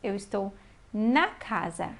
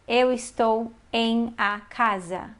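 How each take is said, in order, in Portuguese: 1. A preposição e o artigo se juntam em uma só sílaba. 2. A preposição e o artigo são pronunciados como palavras separadas. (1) "Nós falamos" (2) "Nós não falamos"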